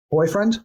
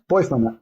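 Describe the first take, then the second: First: Put-on boyfriend, with a rising, questioning lift; questioning echo. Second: Put-on boyfriend, with a falling, settled tune; settling echo. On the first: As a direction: echo "boyfriend" back as a question, pitch lifting. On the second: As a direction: repeat "boyfriend" flatly, letting it land. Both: Shown as a demonstration. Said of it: "there's emphasis on a word".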